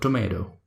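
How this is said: It is said in an American accent. "In American accent is called tomato"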